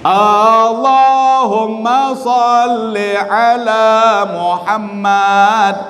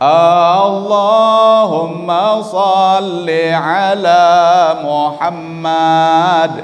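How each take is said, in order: First: The opening vowel of Allahumma is short. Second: The opening vowel of Allahumma is drawn out long. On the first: The speaker calls it right. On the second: The speaker calls it wrong. "Aneh. Pira ton salah no"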